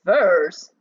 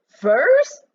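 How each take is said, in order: First: Loud, astonished Furs? with falling tune; cried out. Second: Furs? much higher and louder, rising; cried out. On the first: Mac cries out at the news, loud and astonished. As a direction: blurt Furs? out in disbelief. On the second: Mac repeats the news, higher, louder and rising. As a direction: shriek Furs? in disbelief, rising. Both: Acted. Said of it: "he cried out".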